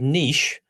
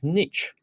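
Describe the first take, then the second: First: The word is said a non-North-American way. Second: The word is said the American way. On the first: "you'd think you was either either Canadian or Australian or somewhat not not North American" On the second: "on an American thing, that's his niche"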